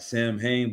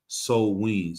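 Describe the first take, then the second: First: It is read as 'sam-hane', following the spelling. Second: It is said as 'sow-een', unlike the spelling. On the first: The speaker calls it wrong. "it's spelled like Sam Hain" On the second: The speaker calls it right. "but it's pronounced So Ween"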